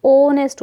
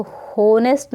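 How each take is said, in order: First: ऑनेस्ट said with a silent h, opening on the o sound; ऑनेस्ट, raised and a little louder, starting straight on o; correct pronunciation. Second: होनेस्ट said with the h sounded; होनेस्ट, voicing the h as a wrong example; wrong pronunciation. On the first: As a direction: stress the correct ऑनेस्ट, no h at all. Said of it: "क्या होता है". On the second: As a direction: demo the mistaken होनेस्ट, h at the start. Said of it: "नहीं होता". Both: Shown as a demonstration.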